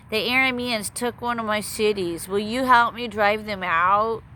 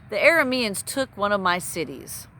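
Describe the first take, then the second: First: Put-on king voice, higher, dragging out the plea; Ahab's voice. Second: Said in the usual way. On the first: Narrator playing the king asking an ally for help, in a put-on voice. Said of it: "Let's use the voice for fun". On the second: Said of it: "let's use the voice for fun".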